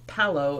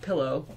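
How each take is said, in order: First: The first vowel sounds like E or A. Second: The first vowel sounds like a short I. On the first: The speaker calls it wrong. "fifty percent of the people in Los Angeles ... pronounce it" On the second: The speaker calls it right.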